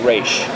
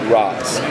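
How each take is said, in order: First: The name ends with an 'sh' sound. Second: The name ends with a 'z' sound. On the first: The speaker shows respect to the leader. "It's a sign of respect. It's the proper way to pronounce it" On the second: The speaker shows disrespect to the leader. "it's a way of disrespecting the leader"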